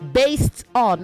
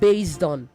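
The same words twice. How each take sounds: First: The s in based is a hissing s sound. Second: The s in based is a buzzing z sound. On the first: The speaker calls it right. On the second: The speaker calls it wrong. "not based on. It's not z"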